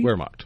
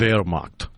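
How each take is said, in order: First: It is said with an English-style pronunciation. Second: It is said with a strong German pronunciation.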